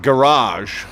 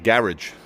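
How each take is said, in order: First: It is said with a North American pronunciation. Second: It is said with a British pronunciation.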